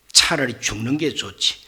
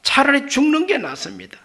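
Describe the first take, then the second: First: Lower, sulky grumble; sullen Jonah. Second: Higher, sulky outburst; petulant Jonah. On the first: Jonah grumbling he'd rather die, sullen. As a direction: grumble it under the breath. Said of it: "이런 꼴은 못 봅니다". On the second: Jonah telling God he would rather die, sulky. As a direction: spit it out like a sulking prophet. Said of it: "요나가 얼마나 성질이 못됐든지". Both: Retold or imitated.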